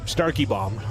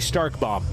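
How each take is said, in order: First: The name is said with three syllables. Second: The name is said with two syllables. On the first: The speaker calls it right. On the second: The speaker calls it wrong.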